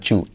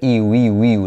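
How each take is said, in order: First: The word begins with a ch sound. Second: The word begins with a y sound. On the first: The speaker calls it wrong. "no chu" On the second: The speaker calls it right. "la Y hay que hacer iu"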